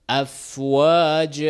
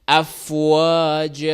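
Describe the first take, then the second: The two takes are said the same way.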